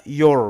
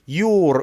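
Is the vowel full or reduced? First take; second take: reduced; full. First: The vowel is reduced to a schwa. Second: The vowel is full and clear. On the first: "بنحوله يبقى شوا" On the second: "strong forms"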